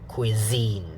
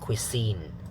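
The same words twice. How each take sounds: First: The middle consonant is a voiced z. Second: The middle consonant is a voiceless s. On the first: The speaker calls it right. "you make the Z sound, make it voiced" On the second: The speaker calls it wrong. "not cuisine"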